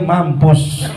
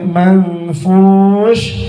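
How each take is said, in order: First: The word has a p and ends in s. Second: The word has an f and ends in sh. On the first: The speaker calls it wrong. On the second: The speaker calls it right.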